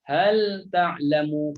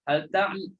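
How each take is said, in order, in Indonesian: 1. Bunyi l diucapkan jelas sebelum t. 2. Bunyi l menyatu dengan t yang mengikutinya. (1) "kita nak pastikan lam itu masuk pada makhrajnya" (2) "Kita dah baca dengan idgham dah tanpa kita sedar"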